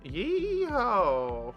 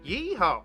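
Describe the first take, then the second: First: The yeehaw sounds tired and weary. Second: The yeehaw sounds lively and energetic.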